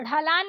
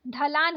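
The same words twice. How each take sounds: First: ढलान opening on flapped ढ़; wrong flapped ढ़. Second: ढलान opening on aspirated DH; correct stopped ढ. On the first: Teacher showing learners the mistake, flapped ढलान. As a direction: flick into ढलान. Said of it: "नहीं होता है". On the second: Teacher correcting learners, stopped ढलान. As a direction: start ढलान with firm ढ. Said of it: "होता है". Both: Shown as a demonstration.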